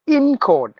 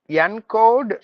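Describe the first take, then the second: First: The first vowel sounds like the i in ink. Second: The first vowel sounds like the e in get. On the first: The speaker calls it right. "Just replace the E with I" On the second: The speaker calls it wrong. "not in encode, no"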